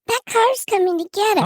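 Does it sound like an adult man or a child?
child. It is said in a put-on little child's voice.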